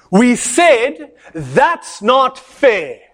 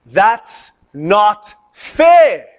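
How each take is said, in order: First: Very slow, higher, pointed defiance; student angrily defying the lecturer; angry voice. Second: Very slow, louder drawn-out protest; slow chanted outcry of the students; class shouting. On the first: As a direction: spit it back at the teacher word by word. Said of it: "in an angry voice". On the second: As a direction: stretch it out like a whole room protesting. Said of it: "They all shouted in unison". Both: Retold or imitated.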